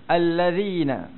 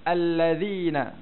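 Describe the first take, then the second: No difference in how they are said.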